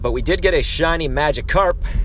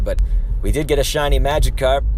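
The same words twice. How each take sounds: First: The syllable 'carp' is strongly emphasized. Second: The syllable 'carp' gets no special emphasis.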